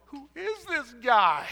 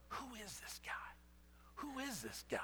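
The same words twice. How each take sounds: First: Higher, louder, slow amazed exclaim. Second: Hushed, stunned murmur, much softer; half-whispered amazement at the calmed storm; awed hush. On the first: Disciples after the loaves and fish, loud slow amazement. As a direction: belt out the wonder, drawn out. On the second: Disciples staring at each other after the storm, hushed awe. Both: Acted.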